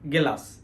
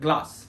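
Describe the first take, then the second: First: A vowel splits the g and l sounds. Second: The g and l sounds run together. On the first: The speaker calls it wrong. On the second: The speaker calls it right.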